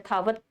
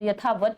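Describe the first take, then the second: First: The final t has no vowel after it. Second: The final t is followed by a vowel. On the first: The speaker calls it right. "त को हमने silent कर दिया है" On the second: The speaker calls it wrong. "यथावत नहीं बोलना"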